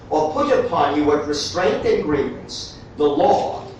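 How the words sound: There is a break right after grievance.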